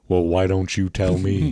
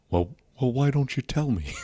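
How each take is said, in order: First: Lightly voiced wrestler-politician; Jesse Ventura. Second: Halting comeback in a put-on voice; Jesse Ventura. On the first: Comic answering a question as his impression, lightly voiced. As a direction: throw the question back in a put-on voice. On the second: Comic repeating his impression for laughs, lightly voiced. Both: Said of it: "the whole Jesse Ventura thing".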